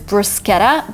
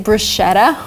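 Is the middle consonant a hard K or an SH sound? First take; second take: hard K; SH. First: The middle consonant is a hard K. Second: The middle consonant is an SH sound. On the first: The speaker calls it right. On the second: The speaker calls it wrong.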